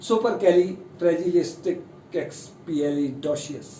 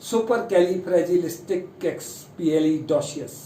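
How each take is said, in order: First: Supercalifragilisticexpialidocious spelled out slowly, syllable by syllable; slow careful retry. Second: Supercalifragilisticexpialidocious said very slowly, each syllable separate; slow careful try. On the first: Teacher retrying a long word slowly for students. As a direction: stretch supercalifragilisticexpialidocious into clear, even syllables. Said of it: "थोड़ा सा correct करने की कोशिश करते हैं". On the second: Teacher modelling the long word very slowly for students. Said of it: "एक बार फिर कोशिश करते हैं". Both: Shown as a demonstration.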